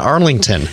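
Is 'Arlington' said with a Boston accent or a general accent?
general. It is said in a general American accent. The speaker calls it wrong. "Sorry, wait a minute"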